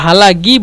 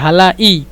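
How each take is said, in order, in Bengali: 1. মধ্যের ব্যঞ্জনটি একটি গলার gh ধ্বনি। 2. মধ্যের ব্যঞ্জনটি একটি গ্লোটাল স্টপ। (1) "হালাগি বলবে গন দিয়ে" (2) "অথবা বলবে হামজা দিয়ে"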